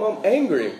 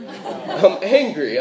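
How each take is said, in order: First: Said in the usual way. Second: "I'm angry" stretched slowly through a laugh; laughing mock anger. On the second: Shown as a demonstration. Preacher joking about missing grandma's biscuits, laughing mock anger.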